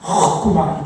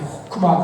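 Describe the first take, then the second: First: The first consonant is a harsh, throaty rasp. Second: The first consonant is a plain, soft h. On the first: The speaker calls it right. "가래가 목에 끓였을 때 학 하면서 이렇게 하죠. 호크마 이게 원래 발음이라고" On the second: The speaker calls it wrong. "그냥 단순하게 호크마 그러는 게 아니라"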